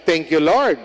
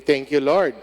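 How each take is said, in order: First: "Thank you, Lord." called out louder to the congregation; leading the response. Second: Said in the usual way. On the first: Shown as a demonstration. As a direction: lead them, project "Thank you, Lord.". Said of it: "Sabi niyo". (malakas na pag-aaya sa kongregasyon) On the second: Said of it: "Sabi niyo, "Thank you, Lord".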